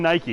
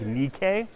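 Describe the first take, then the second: First: It is said like English 'NY-kee'. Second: It is said like Greek 'NEE-keh'. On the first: The speaker calls it wrong. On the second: The speaker calls it right.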